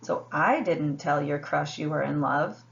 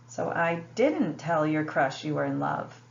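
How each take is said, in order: First: The stress is on "I". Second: The stress is on "didn't".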